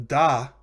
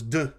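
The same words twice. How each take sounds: First: Da with a full open "ah"; full vowel. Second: D with a short schwa, "duh"; reduced vowel. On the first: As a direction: say da as a full "dah". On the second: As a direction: say d as a clipped "duh". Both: Shown as a demonstration. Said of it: "the da becomes d".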